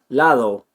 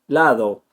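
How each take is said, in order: No difference in how they are said.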